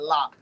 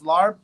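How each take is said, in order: First: It has a short 'o' vowel and ends in p. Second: It has an 'ar' vowel and ends in b. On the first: This is how the speaker's own community says it. "but we call it lop" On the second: This is how the spelling suggests it sounds. "It sounds like it's larb"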